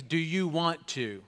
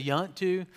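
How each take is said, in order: First: Said in the usual way. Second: "yunt to" squashed into two syllables; "do you want" slurred down to "yunt"; Southern slurred contraction. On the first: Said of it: "Uh, that means". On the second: Shown as a demonstration. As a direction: say "yunt to" as run-together Southern slang. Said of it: "that means, "Do you want to?".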